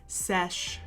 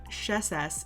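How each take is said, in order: First: The word is said with one syllable. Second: The word is said with two syllables. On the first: The speaker calls it right. "it's sesh" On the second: The speaker calls it wrong. "I said it wrong before. It's not sheses"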